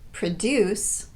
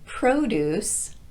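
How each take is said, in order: First: The stress is on the second syllable. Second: The stress is on the first syllable. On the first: It means to make or grow something. "a verb" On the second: It names fresh fruit and vegetables. "a noun"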